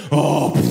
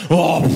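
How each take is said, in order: First: Scornful sigh. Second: Repeated with a louder, more emphatic "pff"; the scornful sigh again, harder; typically French scoff. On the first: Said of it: "elle fait". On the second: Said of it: "ça pour moi c'est typiquement français". («Oh, pff» répété plus fort, avec dédain) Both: Retold or imitated.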